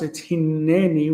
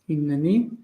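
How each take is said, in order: First: The middle n sound is held long. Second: The middle n sound is short. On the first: The word stands at a pause. "when it's in pause, it's hineni with a dagesh" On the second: The word is not at a pause. "when it's not in pause, it's hineni"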